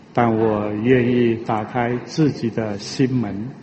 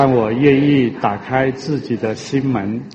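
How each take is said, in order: The two takes are said the same way.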